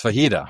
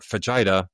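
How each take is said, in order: First: Fajita said "fuh-HEE-tuh"; pronounced with H. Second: Fajita said "fuh-JAI-duh"; mispronounced with J. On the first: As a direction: say fajita the Spanish way, J as H. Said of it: "it's fajita". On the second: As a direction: read fajita as spelt, J and a long I. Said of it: "it's not, it's not fajita". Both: Shown as a demonstration.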